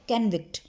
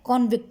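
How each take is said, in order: First: The first vowel sounds like an 'a'. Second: The first vowel sounds like an 'o'. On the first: The speaker calls it right. "पढ़ना क्या है" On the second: The speaker calls it wrong. "हम इसको क्या पढ़ते हैं, कॉन्विक्ट, जो कि गलत है"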